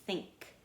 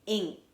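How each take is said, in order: First: Said in the usual way. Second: "Ink" as a glued chunk, final k released apart; tapped out in sounds. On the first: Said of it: "that's one of my glued sounds". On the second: Shown as a demonstration. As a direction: sound out "Ink" for tapping, punched louder. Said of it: "Now I'm gonna tap it".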